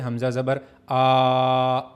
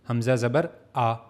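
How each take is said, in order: First: The final vowel is stretched out long. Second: The final vowel is short and soft. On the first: The speaker calls it wrong. "खींचने का मतलब ... ऐसे नहीं करना" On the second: The speaker calls it right. "इसको अपने short पढ़ना है"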